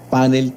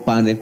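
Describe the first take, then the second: First: "panel" said PA-nel, accent on the first syllable; stress on A. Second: "panel" said pa-NEL, accent on the last syllable; stress on E. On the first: Host asking the professor, "panel" stressed on the A. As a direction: put the weight on PA in "panel". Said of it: "con acento en la A". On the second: Host asking the professor, "panel" stressed on the E. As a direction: put the weight on NEL in "panel". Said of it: "con acento en la E". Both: Shown as a demonstration.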